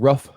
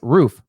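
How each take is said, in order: First: The vowel sounds like a dog's bark, ruff. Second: The vowel is a long 'oo' as in boot. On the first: The speaker calls it wrong. "not roof. It, it's not what a dog says" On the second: The speaker calls it right. "And it's roof"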